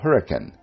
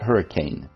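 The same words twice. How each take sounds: First: It is said the local small-town way. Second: It is said the usual standard way. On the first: This is how the town's own residents say it. The speaker calls it right. "which native Hurricanites call hurricane" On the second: This is how outsiders say it. The speaker calls it wrong. "not hurricane"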